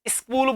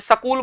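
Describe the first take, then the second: First: An i vowel is added before the s sound. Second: A vowel is inserted after the s sound. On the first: It reflects a common way of speaking elsewhere in India. "आप इसे स्कूल बोलते हो, ई की sound निकालते हो" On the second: It reflects a regional Haryanvi way of speaking. "Haryanvi क्षेत्र जो होता है उसमें उसे सकूल बोला जाता है"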